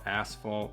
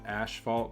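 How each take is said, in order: First: It is said with an s sound, standard style. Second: It is said with a sh sound, Minnesota style.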